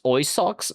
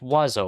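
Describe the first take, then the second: First: The word sounds like 'oy-socks', letter by letter. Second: The word sounds like 'wah-zoh', with silent letters. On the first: The speaker calls it wrong. "I guess it it's pronounced oi socks" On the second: The speaker calls it right. "It's pronounced wazo"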